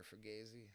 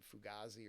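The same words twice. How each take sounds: First: "Fugazi" said as foo-GAY-zee; alternative pronunciation guess. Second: "Fugazi" said as foo-GAH-zee; first pronunciation guess. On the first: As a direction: say "Fugazi" with an ay in the stressed middle syllable. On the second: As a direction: say "Fugazi" with an ah in the stressed middle syllable. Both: Shown as a demonstration. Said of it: "I don't know how to pronounce it".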